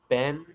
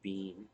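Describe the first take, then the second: First: The word has the vowel of set. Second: The word has the long vowel of see. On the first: "With the vowel in set" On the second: "In the vowel in C. No, I don't say bean"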